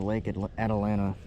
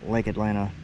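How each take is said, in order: First: The name is said in its full form. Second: The name is said in a shortened form. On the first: This is the official name. "this lake is named Lake Atalanta" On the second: This is how locals usually say it. "like I always pronounce it"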